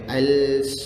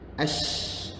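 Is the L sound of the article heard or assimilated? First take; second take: heard; assimilated. First: The L sound is clearly pronounced. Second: The L merges into the following sh sound. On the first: The speaker calls it wrong. "Dia tak boleh al, salah" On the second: The speaker calls it right. "Lam tak ada"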